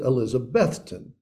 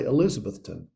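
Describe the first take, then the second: First: The stress is on the middle syllable. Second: The stress is not on the middle syllable. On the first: The speaker is a local who knows the town. The speaker calls it right. "The emphasis is on the middle syllable" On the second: The speaker is an outsider to the town. The speaker calls it wrong. "we can tell the foreigners because they say Elizabethton"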